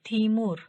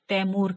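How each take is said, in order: First: The first syllable sounds like 'tee'. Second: The first syllable sounds like 'tie'. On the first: This is the Turkish form. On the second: This is the local Urdu form.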